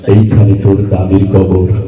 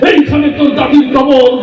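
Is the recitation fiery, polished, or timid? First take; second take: polished; fiery. First: It is recited smoothly and beautifully. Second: It is declaimed loudly like a heated speech. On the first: A skilled reciter is performing. "সে অনেক সুন্দর করে আবৃত্তি করছে" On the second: A politician is reciting like a rally speech. "রাজনীতির মঞ্চে গরম বক্তব্য দিয়ে অভ্যাস"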